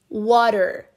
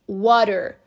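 No difference in how they are said.

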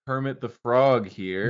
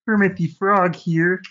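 First: It is a weak, unconvincing Kermit voice. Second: It is a convincing Kermit the Frog voice.

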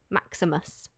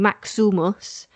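First: The middle vowel is between U and I. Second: The middle vowel sounds like an I. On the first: The speaker calls it right. "halfway between a U and an I" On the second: The speaker calls it wrong. "and you're not saying Maximus"

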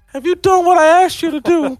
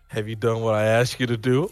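First: It is said in an imitation of Mickey's voice. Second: It is said in the speaker's normal voice.

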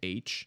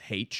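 First: The letter is said the usual way. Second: The letter is said the British way. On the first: "instead of H" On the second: "my British science professor says H"

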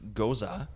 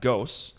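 First: The word is said as two syllables. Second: The word is said as one syllable. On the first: The speaker calls it right. "It's Goza" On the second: The speaker calls it wrong. "It's not Ghosts"

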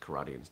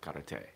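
First: It is said with an American pronunciation. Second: It is said with a Japanese pronunciation. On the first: "we pronounce karate as karate" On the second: "would be the Japanese enunciation of it"

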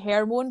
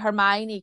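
First: The name has a misread, unusual pronunciation. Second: The name has its usual, accepted pronunciation. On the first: The speaker calls it wrong. "I just want to say Hermione, because that's how I read it" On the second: The speaker calls it right. "it takes me so much effort to say Hermione"

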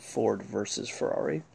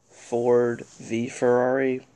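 First: The middle word is said as the full word versus. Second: The middle word is said as the letter vee. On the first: This is how the speaker prefers to say the title. "I'm still gonna call it" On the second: This is how most people say the title. "this is the way that people pronounce it"

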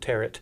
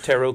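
First: The final T is sounded. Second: The final T is silent. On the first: The speaker calls it wrong. "I always called it tarot" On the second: The speaker calls it right. "silent T"

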